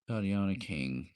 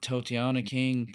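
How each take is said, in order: First: The first vowel is a short O sound. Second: The first vowel is a long O sound. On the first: The speaker calls it right. "Short O, okay" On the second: The speaker calls it wrong. "Probably said that wrong"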